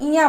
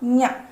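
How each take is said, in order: First: It is said as 'iya' with no nasal. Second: It is said as a nasal 'nya'. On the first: The speaker calls it wrong. "इसको कुछ लोग इया बोलते हैं" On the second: The speaker calls it right. "इसका सही उच्चारण होगा न्या"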